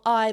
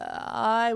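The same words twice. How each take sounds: First: The vowel starts with a sharp glottal catch. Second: The vowel starts with a creaky vocal fry. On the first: "I being a glottal" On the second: "with a vocal fry"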